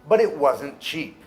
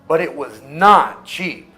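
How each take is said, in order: First: Not is contracted, with no special emphasis. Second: Not is said in full and emphasized. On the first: A plain statement with no added emphasis. "Essa é a frase normal com a contração wasn't. Ali eu não estou dando ênfase" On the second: The contrast is stressed. "Olha só essa"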